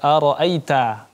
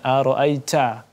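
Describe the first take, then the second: First: The t has only a light puff of air. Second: The t has a strong, exaggerated puff of air. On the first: The speaker calls it right. "anginnya sedikit" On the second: The speaker calls it wrong. "ini terlalu berlebihan"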